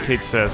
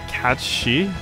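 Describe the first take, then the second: First: The name sounds like 'caged sith'. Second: The name sounds like 'kat-shee'. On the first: The speaker calls it wrong. "I'm just gonna keep calling it Caged Sith" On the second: The speaker calls it right. "the way you're supposed to pronounce that"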